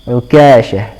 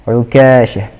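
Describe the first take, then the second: The two takes are said the same way.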